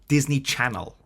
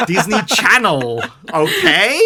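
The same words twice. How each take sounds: First: Said in the usual way. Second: Disney Channel stretched slow, louder and higher; stress on Disney Channel. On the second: Shown as a demonstration. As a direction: hammer Disney Channel home, slowly. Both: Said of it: "Not Disney Marvel".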